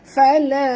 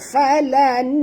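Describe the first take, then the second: First: The n is nasalized and hidden, not fully pronounced. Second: The n is pronounced clearly with a full tongue contact. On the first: The speaker calls it right. "Sorokkan bunyi nun ini pada kadar separuh ke dalam huruf ta disertai dengung" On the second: The speaker calls it wrong. "lidah kita ke bawah. Ha, ya, tak betul"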